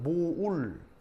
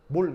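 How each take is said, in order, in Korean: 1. 모음이 o에서 u로 미끄러져요. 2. 모음은 짧은 단모음 o예요. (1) "정확한 발음은 모울" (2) "우리나라 이렇게 쓰면은 몰 이렇게 하잖아요. 우 빼버리고 발음하잖아요"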